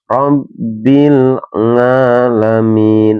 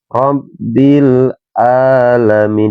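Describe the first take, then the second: First: Alamin starts with an ng sound. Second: Alamin starts with a glottal stop. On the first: "nggak boleh dibaca nga" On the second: "dibacanya hamzah"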